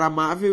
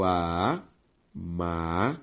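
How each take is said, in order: First: Said in the usual way. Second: "amável" drawn out as a... má... vel; syllable by syllable. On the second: Shown as a demonstration. Teacher showing students the division, syllable by syllable. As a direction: split "amável" into three slow, separate syllables. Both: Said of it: "ao separar amável".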